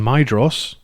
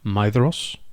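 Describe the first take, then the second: First: The middle consonant is a hard d sound. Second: The middle consonant is a soft th sound. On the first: The speaker calls it wrong. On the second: The speaker calls it right.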